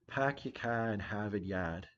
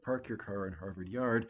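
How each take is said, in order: First: The R sounds after vowels are dropped, Boston-style. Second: The R sounds after vowels are pronounced.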